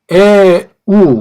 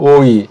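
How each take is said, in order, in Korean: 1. 'eu'로 발음해요. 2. 'oi'로 발음해요. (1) "에우라고도 발음할 수 있고" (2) "독일 같은 데서는 이걸 오이라고 발음해요"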